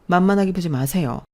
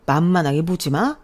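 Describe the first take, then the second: First: Louder firm warning; firm defiance. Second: Loud sarcastic echo rising on 마; mocking echo. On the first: Acted. Daughter warning father not to look down on boyfriend, firm defiance. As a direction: stand up to him firmly. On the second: Father mocking the daughter's own warning, sarcastic echo. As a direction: throw 만만하게 보지 마 back with a scornful rise on 마.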